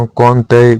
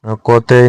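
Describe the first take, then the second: First: कौनतेय with n before t; correct form. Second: कौतेय without the n; wrong form. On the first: Teacher giving the correction, कौनतेय with n. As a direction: say कौनतेय as kaun-tey. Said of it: "होता है". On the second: Teacher showing learners the mistake, कौतेय lacking n. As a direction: say कौतेय as kau-tey. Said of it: "नहीं होता". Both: Shown as a demonstration.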